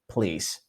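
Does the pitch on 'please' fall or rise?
fall. The pitch falls on the word. The caller assumes the request will be granted. The speaker calls it right. "notice my downward please"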